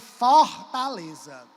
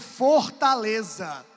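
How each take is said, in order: First: It is said with a Cearense accent. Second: It is said with a Southeastern Brazilian accent. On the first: "Você vai dizer Fortaleza. Você fala assim" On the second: "Pergunta para um sudestino"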